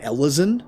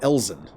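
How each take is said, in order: First: The word is said with three syllables. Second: The word is said with two syllables.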